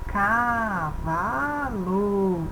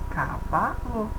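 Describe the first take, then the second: First: The word is said slowly with long, drawn-out vowels. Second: The word is said split into separate syllables. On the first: "Se a gente espichar a fala devagar" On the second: "Juntando os dois tipos de sons, temos uma unidade, umas unidades chamadas de sílabas"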